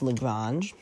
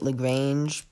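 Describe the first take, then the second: First: The word is said in a French way. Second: The word is said in an English way. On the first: The speaker calls it right. "But it's Lagrange" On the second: The speaker calls it wrong. "Sorry if I was pronouncing it Lagrange before. I can't speak French"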